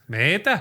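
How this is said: It is said in a Canadian accent.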